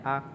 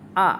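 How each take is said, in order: First: The syllable is said with the light neutral tone. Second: The syllable is said with the fourth tone. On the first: "Kalau nada ringan cuma a gitu aja"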